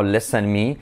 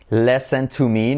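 First: Said in the usual way. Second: Slow "listen to me" with "to" drawn out; deliberate correct model, "to" held long; stress on TO. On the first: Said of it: "no listen me". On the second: Shown as a demonstration. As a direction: lean on the word "to" in "listen to me".

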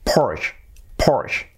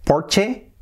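First: "Porsche" as one syllable, "porsh"; English-style Porsche. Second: "Porsche" as "POR-che", higher and rising; the mistaken "Porsche", two syllables, questioning; Spanish-style Porsche. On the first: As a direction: say "Porsche" ending on a sh. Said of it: "No, es Porsche". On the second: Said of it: "no es". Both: Shown as a demonstration.

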